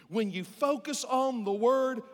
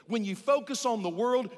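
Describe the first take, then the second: First: "word" leaned on, slow and weighty; slow down and land on "word"; stress on word. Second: "world" stressed against "word". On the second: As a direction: contrast "world" clearly with "word". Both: Shown as a demonstration.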